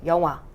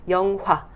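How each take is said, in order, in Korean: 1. 가운데 ㅎ 소리는 빠져요. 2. 가운데 ㅎ 소리는 확실하게 숨을 내쉬어요. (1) "그냥 이응이 돼버릴 때가 많아요" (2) "이렇게만 뱉어도 훨씬 발음이 좀 고급스럽고"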